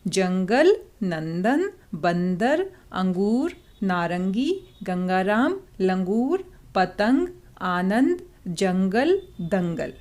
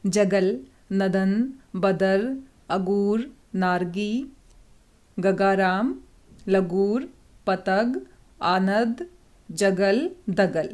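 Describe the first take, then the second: First: जंगल, नंदन, बंदर said with a clear nasal n before the consonant; सही अनुस्वार उच्चारण; correct anusvara. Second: जगल, नदन, बदर said with no nasal n sound; wrong pronunciation demo, no anusvara; words without anusvara. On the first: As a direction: carefully sound the nasal in जंगल, अंगूर, दंगल. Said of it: "अब आपको सही लग रहा है?". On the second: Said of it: "हम इनके ऊपर अनुस्वार लगाना भूल गए हैं". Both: Shown as a demonstration.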